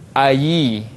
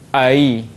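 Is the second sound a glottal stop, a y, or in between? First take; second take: y; between. First: The second syllable starts with a clear y sound. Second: The second syllable is softened between stop and y. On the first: "kita tukarkan kepada ya baris bawah" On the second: "Tengah-tengah lahir ai. Itu tashil"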